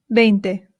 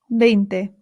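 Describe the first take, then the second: The two takes are said the same way.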